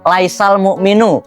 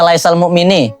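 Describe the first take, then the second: First: The second word ends with a 'u' vowel. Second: The second word ends with an 'i' vowel. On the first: The speaker calls it right. "maka harusnya dibaca laisal mu'minu, bukan mu'mini" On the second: The speaker calls it wrong. "Yakin bacanya laisal mu'mini"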